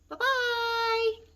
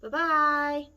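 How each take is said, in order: First: It is said in a high, squeaky voice. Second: It is said in a middle-sized voice.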